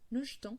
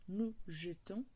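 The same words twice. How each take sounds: First: The first e of jetons is dropped, spoken faster. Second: The first e of jetons is fully pronounced. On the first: "on parle un peu plus vite, on dit nous jetons ... les E devient un E muet" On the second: "je peux dire nous jetons"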